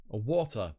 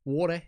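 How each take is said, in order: First: "water" in a British accent. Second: "Water" in an Australian accent, pitched up. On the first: Reader comparing how "water" is said, British accent. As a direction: say "water" as most British people do. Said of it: "as most actual British people say". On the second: Reader showing how "Water" slipped out, Australian accent. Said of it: "it's the way I said water". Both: Shown as a demonstration.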